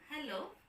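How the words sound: It is said on a low, flat pitch. The speaker feels a little dull. "a low tone, ... shows a little dull feeling"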